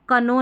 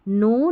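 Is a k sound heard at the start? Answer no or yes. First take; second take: yes; no. First: A k sound is heard before the n. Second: No k sound is heard before the n. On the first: The speaker calls it wrong. "इसको हम कनो नहीं पढ़ेंगे" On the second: The speaker calls it right. "हम पढ़ेंगे नो ... क्योंकि यहाँ पर के साइलेंट है"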